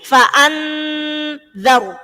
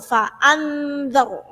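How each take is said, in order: First: The nasal is held long before the next syllable. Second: The nasal flows straight into the next syllable. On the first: The speaker calls it wrong. "jangan gini, ... kesuwen" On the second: The speaker calls it right.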